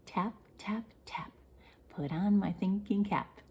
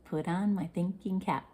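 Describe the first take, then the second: First: Whispered chant, no voice at all. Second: Said in the usual way. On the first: Shown as a demonstration. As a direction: breathe the line in a secret whisper.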